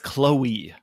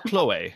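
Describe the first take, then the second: First: The name is said with an English pronunciation. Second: The name is said with a French pronunciation. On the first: She was actually born in an English-speaking Canadian city. The speaker calls it right. "I found out that her name is Chloe" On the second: She was assumed to be French. The speaker calls it wrong. "not Chloe"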